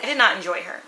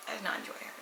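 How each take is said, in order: First: Said in the usual way. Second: "I did not enjoy her" said again much softer, almost under the breath; quiet repeat. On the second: Shown as a demonstration. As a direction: drop the repeat to a near hush.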